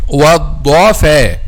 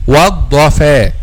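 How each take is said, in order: The two takes are said the same way.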